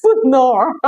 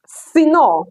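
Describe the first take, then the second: First: "Suno" said SOO-no, with oo; wrong pronunciation. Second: "Sino" said SEE-no, with ee; correct pronunciation. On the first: Teacher replaying her slip, "Suno" said soo-no. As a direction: repeat the slip "Suno", oo in the first syllable. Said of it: "not Suno". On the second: Teacher correcting the slip, "Sino" said see-no. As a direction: say "Sino" with a clear ee first syllable. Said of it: "Okay, Sino, not Suno". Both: Shown as a demonstration.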